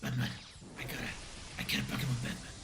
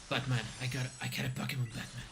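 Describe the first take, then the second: First: It is said in a Joker impression voice. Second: It is said in his normal voice.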